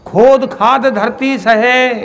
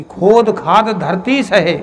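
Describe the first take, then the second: First: खोद hit higher and louder, slow; second take lands on खोद; stress on खोद. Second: Said in the usual way. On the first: Shown as a demonstration. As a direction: repeat it lifting खोद.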